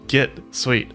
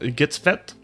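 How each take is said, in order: First: The middle consonant is said as a W sound. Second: The middle consonant is said as a V sound. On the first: "I wasn't sure if the W makes a V sound or" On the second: "like I think it would be pronounced in Sweden"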